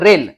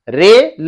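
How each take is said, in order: First: The syllables run together as one word. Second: Each syllable is said separately with a pause.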